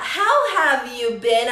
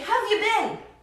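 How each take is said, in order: First: It is said slowly and calmly. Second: It is said quickly and hurriedly.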